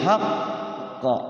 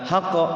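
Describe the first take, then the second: First: The doubled consonant is held before release. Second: The doubled consonant is released straight away. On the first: The speaker calls it right. "Tahan kerihin" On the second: The speaker calls it wrong. "Jangan langsung haqqa"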